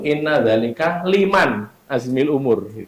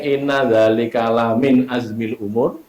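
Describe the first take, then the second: First: The word after dzalika begins with 'li'. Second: The word after dzalika begins with 'la'. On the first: The speaker calls it wrong. "Kami membacanya itu" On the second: The speaker calls it right.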